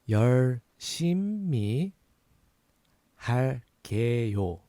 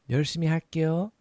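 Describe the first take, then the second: First: It is said slowly. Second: It is said faster.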